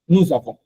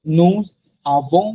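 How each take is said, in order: First: "nous avons" run together as nu-za-von with a z linking the words; linked nous avons. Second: "Nous" and "avons" said apart with a pause, no z link; separated nous avons. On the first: Teacher to students showing the correct liaison, smooth linking. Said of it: "এরকম হয়ে যায়". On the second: Teacher to students showing the wrong way, words kept apart. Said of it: "আলাদা করে বলা হয় না". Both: Shown as a demonstration.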